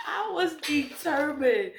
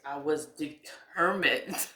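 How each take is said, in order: First: High-pitched, laughing exclamation; laughing emphasis. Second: Said in the usual way. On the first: Real, not acted. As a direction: burst out higher through laughter. Repeats it, breaking into laughter.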